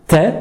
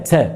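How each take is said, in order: First: The t is crisp with little hiss. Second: The t carries a strong s-like hiss. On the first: The speaker calls it right. "il faut bien mettre la langue au début" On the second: The speaker calls it wrong. "et ne pas dire"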